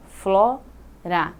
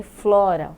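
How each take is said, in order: First: "flora" as flo, pause, ra; split into syllables. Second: Said in the usual way. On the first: Shown as a demonstration. Teacher counting two sounds, "flora" syllable by syllable. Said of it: "dois sons". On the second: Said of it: "duas sílabas".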